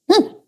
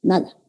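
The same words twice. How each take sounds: First: "Nada" jumping much higher; high emphatic nada. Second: Said in the usual way. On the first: Shown as a demonstration. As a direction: toss out "Nada" in a high squeak. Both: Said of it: "No vibran mis cuerdas vocales".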